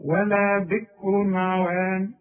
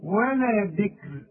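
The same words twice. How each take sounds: First: Slow, heavy ra in "بكر" flowing into "عوان"; وصل "بكر عوان" بتفخيم الراء; connected recitation. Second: Slow, thin light ra at the pause in "بكر"; وقف على "بكر" بترقيق الراء; stopping on the word. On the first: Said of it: "إنما إذا وصلنا هنقول". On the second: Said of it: "وإذا وقفت بين لي أنت واقف على أنهي حرف". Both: Shown as a demonstration.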